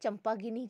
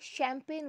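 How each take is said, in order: First: It starts with ch and ends in -gini. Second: It starts with sh and ends in -pain. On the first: The speaker calls it wrong. "तो आप तो क्या सोचेंगे चंपागिनी क्या है" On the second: The speaker calls it right. "सी एच में देख रहे हैं श साउंड आ रहा है"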